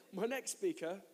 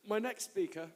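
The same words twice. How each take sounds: The two takes are said the same way.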